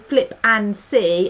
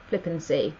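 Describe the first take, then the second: First: The words are said slowly and kept apart. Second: The words are said quickly and run together. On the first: It is the name of the product. The speaker calls it right. "I am saying Flip and See" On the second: It could sound like a rude word. The speaker calls it wrong. "not Flip and See, because I don't want anyone to think I'm being rude"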